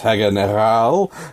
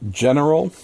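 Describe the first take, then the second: First: It is said in an exaggerated German accent. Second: It is said in a plain English accent.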